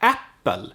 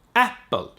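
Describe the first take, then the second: First: The P in the middle is held long. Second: The P in the middle is held long.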